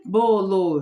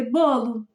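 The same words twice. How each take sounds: First: "bolo" read as bo-lo, both syllables drawn out; slow, louder "bo-lo", unblended; split syllables. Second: "bolo" as one word, first syllable stressed; blended word. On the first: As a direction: stretch "bolo" into two equal syllables, the wrong reading. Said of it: "Mas a gente não lê bolo". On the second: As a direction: join "bolo" up, BO strong and final o light. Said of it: "A gente lê bolo". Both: Shown as a demonstration.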